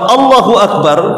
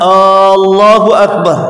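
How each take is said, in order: First: The first vowel of Allahu is kept short. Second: The first vowel of Allahu is drawn out long. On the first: It states that God is the greatest. The speaker calls it right. "ya Allah Maha Besar" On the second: It asks whether God is the greatest. The speaker calls it wrong. "dipanjangkan alifnya"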